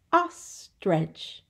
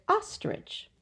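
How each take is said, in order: First: "Ostrich" split into two beats; syllable by syllable. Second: Said in the usual way. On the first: Shown as a demonstration. Teacher counting syllables for children, "Ostrich" in two separate parts. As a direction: break "Ostrich" with a pause between syllables. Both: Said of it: "Two syllables".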